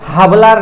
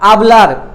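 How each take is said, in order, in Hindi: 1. शब्द सुनाई देने वाली h ध्वनि से शुरू होता है। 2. शब्द स्वर से शुरू होता है, h नहीं है। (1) "हाबलार नहीं होता है एच से" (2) "आबलार होता है"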